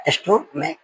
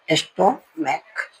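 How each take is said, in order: First: Laughing repeat. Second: stomach drawn out very slowly and softly, with ch said as k; slow demo. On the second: Teacher to students, demonstrating stomach slowly and softly. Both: Shown as a demonstration. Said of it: "यहाँ पे इसका meaning देखो".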